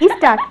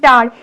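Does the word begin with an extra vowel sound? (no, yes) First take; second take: yes; no. First: An extra 'i' vowel comes before the cluster. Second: The word starts directly on the consonant cluster. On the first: "ই এর সাহায্য নিচ্ছে" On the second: "যুক্তাক্ষর বলতে যেমন"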